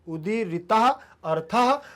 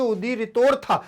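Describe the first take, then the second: First: It is read slowly, word by word. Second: It is read at normal speed, run together. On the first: "पहले आराम से पढ़ेंगे" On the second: "वैसे तो पढ़ेंगे"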